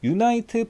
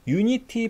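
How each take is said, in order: First: It is said with three syllables, ending in 'nite'. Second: It is said with three syllables, ending in 'nitee'. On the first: The speaker calls it wrong. "유나이트 플랫폼이 아니라" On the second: The speaker calls it right. "유니티 플랫폼이라 부르고요"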